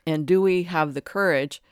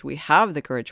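First: "do we have the courage" asked as a real question, stress on "do" and falling; doubting question. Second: "have" stressed and louder, falling firmly; firm statement. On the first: Doubting aloud to a room of seekers, questioning. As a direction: ask "do" as if unsure anyone has it. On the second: Correcting her own question for the audience, firm assertion. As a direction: state "We have the courage" as settled fact. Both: Shown as a demonstration. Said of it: "It's not do we have the courage".

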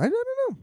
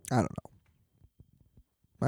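First: Very high, squeaky mock uncertainty; silly high voice. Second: Said in the usual way. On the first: Comedian doubting his own plan, silly high voice. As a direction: jump way up into a comic squeak.

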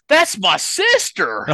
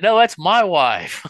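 First: Indignant Southern Missouri drawl, much higher and slower; Southern Missouri accent, offended and dragged out. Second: Louder, much higher, slow mock cry; mock protest. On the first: Retold or imitated. Brother corrects the comedian, indignant Southern Missouri accent. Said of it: "he said it with the accent and everything". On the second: Husband claims his wife beside her brother, hammed-up shout. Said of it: "I said".

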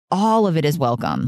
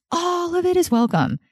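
First: Said in the usual way. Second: "all of it is welcome" swept up very high; high, emphatic "all of it is welcome"; emphatic repeat. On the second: Real, not acted. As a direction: lift "all" far up in pitch for emphasis.

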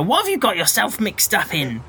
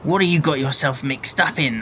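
First: Said in the usual way. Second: Character question, pitched down a little; deeper voice. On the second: Acted. Informant questioning Jack about trouble, in a deeper voice. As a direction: ask it in a lower voice. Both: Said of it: "my voice has suddenly got deeper".

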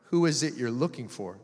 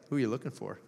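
First: Said in the usual way. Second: Soft, low, with a grin; grinning. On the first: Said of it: "when Jesus said this". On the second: Acted. Jesus to crying Mary, grinning gently. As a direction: ask it teasingly softly, lower, through a grin. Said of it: "almost had a grin on his face".

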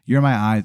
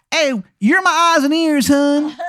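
First: Said in the usual way. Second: Very high, loud Baltimore wizard; terrible Maryland accent. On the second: Acted. Wizard makes Adam his spy, terrible Maryland accent. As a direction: launch into a squawking, overdone Maryland accent. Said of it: "it is a terrible Maryland accent".

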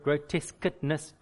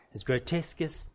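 First: Grotesqueness said slowly, syllable by syllable; careful retry. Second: Said in the usual way. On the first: Shown as a demonstration. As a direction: slowly get grotesqueness right after stumbling. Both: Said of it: "gro-, that word".

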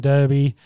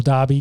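First: "Derby" with an ER vowel in the first syllable; first pronunciation of Derby. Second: "Derby" with a long AH in the first syllable; alternative pronunciation of Derby. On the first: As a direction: say "Derby" as DUR-bee. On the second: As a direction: say "Derby" as DAR-bee. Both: Shown as a demonstration. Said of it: "depending on how you wanna say it".

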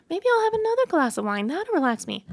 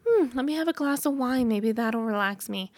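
First: Much higher and faster, a bright hopeful rush; eager high inner voice. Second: Said in the usual way. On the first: Retold or imitated. To herself, reaching for more wine: high, fast, hopeful. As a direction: talk yourself into a second glass, high and quick.

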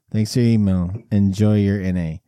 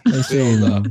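First: Lower, deadpan repeat of the line; deadpan it like a form letter; deep canned reply voice. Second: Low, mock robotic email reply; mock auto reply voice. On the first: Retold or imitated.

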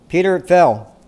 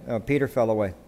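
First: "fell" hit louder and higher; stress on fell. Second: Said in the usual way. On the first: Shown as a demonstration. Preacher driving the point home to his congregation, "fell" hit hard. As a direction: land hard on the word "fell". Pastor repeats the point with force.

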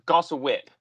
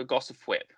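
First: First try says "Gossa Whip" with no final p sound in the first word; slip of the name. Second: "Gossip Whip" with a clear gossip in the first word; corrected name. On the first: Podcaster naming the Twi'lek boss, first fumbled as "Gossa Whip". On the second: Podcaster correcting himself to the right name, "Gossip Whip". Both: Real, not acted. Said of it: "uh, Gossip Whip".

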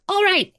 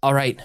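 First: Much higher, squeaky little voice; tiny wallet voice. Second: Said in the usual way. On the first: Acted. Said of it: "now in the form of Viola's wallet".

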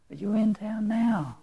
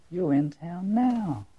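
First: Hushed whisper, full of awe. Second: Slow, drawn-out and tender, lingering on each word; savoring the line. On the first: Preacher whispering the woman's line in awe. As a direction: breathe it as a secret. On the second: Preacher savoring the woman's line to Nelson, slow and tender. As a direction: let every word sink in slowly. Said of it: "the most powerful line in this story". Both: Shown as a demonstration.

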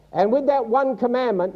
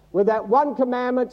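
First: "that" leaned on, falling away through "one commandment"; "that" carries the weight, "one" stays light; stress on that. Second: "one" hit hard in "that one commandment"; "one" is the peak, "that" kept light; stress on one. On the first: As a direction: press the word "that", let the rest drop. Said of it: "not ten". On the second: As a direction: punch the word "one" as the point. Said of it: "he gave a penalty". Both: Shown as a demonstration.

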